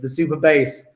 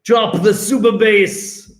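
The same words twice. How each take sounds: First: Said in the usual way. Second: Drawn-out mock-Jamaican delivery; hammed-up Jamaican DJ call; Jamaican accent. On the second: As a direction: drop it slowly in a playful Jamaican accent. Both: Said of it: "I don't know why I've become Jamaican".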